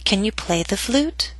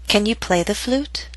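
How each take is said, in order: First: Like a ball bouncing, down on "play" and up to the end; bouncing rise. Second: "Can" stressed, voice rising to "flute"; rising question. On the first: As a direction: dip slightly on "play", then rise all the way to "flute". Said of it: "So down a little bit on play and then start rising up". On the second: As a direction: ask "Can you play the flute?" with a steady rise. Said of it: "Use rising intonation". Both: Shown as a demonstration.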